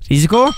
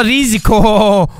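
First: Risiko? as a quick rising question; Risiko? short, rising and doubtful. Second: Risiko. stretched slowly with a falling end; Risiko. drawn out slowly, falling at the end. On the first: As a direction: ask it, unsure whether to risk it. Weighing the risky jump. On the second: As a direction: savour the word as you commit. Committing to the risky jump. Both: Real, not acted.

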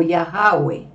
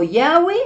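First: "Yahweh" drawn into three syllables, Ya-ha-weh; slow "Yahweh" as Ya-ha-weh; alternative original pronunciation. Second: "Yahweh" said in two parts, Yah-weh; slow, spelled-out "Yahweh"; original pronunciation. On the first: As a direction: say "Yahweh" with an added middle syllable, Ya-ha-we. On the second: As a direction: say "Yahweh" as Ya-we, with a W glide. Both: Shown as a demonstration. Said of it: "la pronunciación original debe haber sido".

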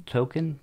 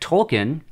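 First: "Tolkien" stumbled over as TOE-kin, no L; fumbled pronunciation. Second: "Tolkien" said as TOLL-kin, L sounded; correct pronunciation. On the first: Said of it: "I can't say it". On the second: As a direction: say "Tolkien" carefully with a clear L. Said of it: "I said his name right". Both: Real, not acted.

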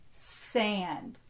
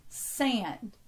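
First: Slightly slower. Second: Said in the usual way. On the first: Shown as a demonstration. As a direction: say "Sand" slowly as one syllable. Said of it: "say it a little slower". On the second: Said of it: "saying the word normally".

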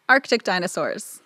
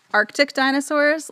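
First: Said in the usual way. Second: High gushing squeal on "Arctic dinosaurs"; delighted squeal. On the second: Real, not acted.

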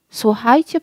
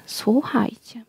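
First: Said in the usual way. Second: Softly whispered "słuchajcie", breath only, much softer. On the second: A narrator's reading. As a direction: hush them with a whispered "słuchajcie". Maid hushing the courtiers.

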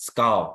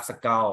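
First: Skull said clearly with a falling tone; correct skull. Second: Skull said the way the teacher rejects; the mispronunciation of skull to avoid; wrong skull. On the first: Teacher models the correct skull for students. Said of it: "skull อ่านว่า skull นะครับ". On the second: Teacher shows students the wrong way to say skull. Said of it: "ไม่ใช่ skull". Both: Shown as a demonstration.

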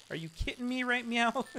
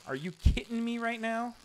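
First: High, playful right meow; cutesy Kiko meow. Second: High-pitched mock catchphrase; imitating Kiko. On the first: Retold or imitated. Streamer copying Kiko's catchphrase, cutesy meow twist. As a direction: twist now into a cat's meow. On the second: Streamer copying Kiko's catchphrase, high mock outrage. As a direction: parrot the other streamer's line. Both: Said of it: "I'm starting to say things that Kiko says".

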